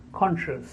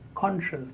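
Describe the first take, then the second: No difference in how they are said.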